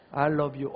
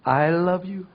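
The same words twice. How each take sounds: First: Said in the usual way. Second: Slow, tender I love you; gentle, adoring I love you; loving look. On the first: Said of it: "그렇게 발음하면 안 돼요". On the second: Shown as a demonstration. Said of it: "사랑스러운 눈빛으로".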